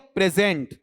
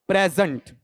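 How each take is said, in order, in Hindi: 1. Stress दूसरे अक्षर पर है। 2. स्ट्रेस पहले अक्षर पर है। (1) "ये लो स्ट्रेस यहां आ गया आपका" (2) "नाउन या एडजेक्टिव में पहले पर आता है"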